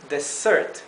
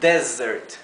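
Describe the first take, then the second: First: The stress is on the second syllable. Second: The stress is on the first syllable. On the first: It means a sweet dish after a meal. "en dessert, que significa postre, la sílaba tónica es la segunda sílaba" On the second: It means a dry, sandy region. "En desert, que es desierto, la sílaba tónica es la primera sílaba"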